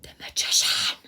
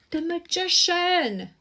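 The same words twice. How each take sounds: First: Breathy whisper of the card name; whispered reveal. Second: Higher, slow, drawn-out announcement; slow high exclaimed card name; excited reveal. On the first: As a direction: hush it like a secret unveiled. Revealing a drawn tarot card. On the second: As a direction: proclaim the card with wonder. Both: Real, not acted.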